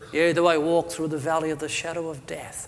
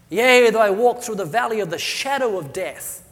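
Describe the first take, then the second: First: It is read in a flat, monotone, gloomy voice. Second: It is read in a lively, varied, hopeful voice. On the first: The psalm is treated as being about death. The speaker calls it wrong. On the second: The psalm is treated as being about life. The speaker calls it right.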